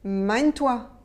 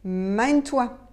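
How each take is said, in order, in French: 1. Les mots sont enchaînés vite. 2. Les mots sont enchaînés vite.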